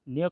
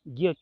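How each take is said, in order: First: It is pronounced the Marathi way, like nya. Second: It is pronounced the Hindi way, like gya. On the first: "Marathi में हम न्य का उच्चार करते हैं" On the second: "Hindi में ज्ञ न्य का उच्चार ज्ञ किया जाता है"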